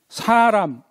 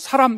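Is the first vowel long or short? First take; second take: long; short. First: The first vowel is held long. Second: The first vowel is cut short. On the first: The speaker calls it right. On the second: The speaker calls it wrong.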